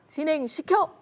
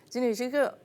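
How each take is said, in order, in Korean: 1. 명령은 또렷하고 분명하게 발음됐습니다. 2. 명령은 웅얼거렸고 불분명합니다. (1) "이렇게 속 시원하게 말씀하시면 좋은데" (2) "뭐 이런 식으로 얘기를 하면 뭘 하자는 건지 아랫사람들은 아주 고통스럽습니다"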